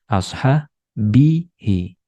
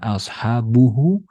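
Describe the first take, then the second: First: An i vowel comes before the ending. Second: A u vowel comes before the ending. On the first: The speaker calls it right. "tapi ashabihi" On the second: The speaker calls it wrong. "Bukan dibaca ashabuhu"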